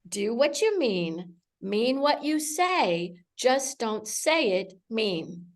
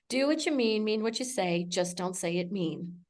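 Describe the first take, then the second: First: The phrase is spoken very slowly. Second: The phrase is spoken at a normal pace.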